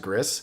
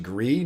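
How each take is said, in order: First: The final s is sounded. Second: The final s is silent. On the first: The speaker calls it wrong. "even though it's spelled as Gris" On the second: The speaker calls it right. "I think you pronounce it actually Gree"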